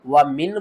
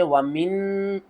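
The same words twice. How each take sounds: First: "वमिन" with a short, clear final n; izhar. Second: "वमिन" with the final n held long; wrong ghunna. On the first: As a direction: end "वमिन" cleanly without nasal hold. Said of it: "पढ़ना है आपने". ("वमिन" में इज़हार, नून साफ़) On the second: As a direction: hum on the last n of "वमिन". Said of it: "नहीं पढ़ना". ("वमिन" के नून पर ग़लत गुन्ना) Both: Shown as a demonstration.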